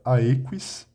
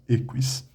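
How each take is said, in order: First: The first vowel is an 'ai' diphthong. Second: The first vowel is a plain 'e' sound. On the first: This is the reconstructed classical pronunciation. "a pronúncia reconstituída falaria aequis" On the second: This is the ecclesiastical pronunciation. "o latim eclesiástico fala essa, essa letra como E"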